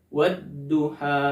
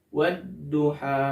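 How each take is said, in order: The two takes are said the same way.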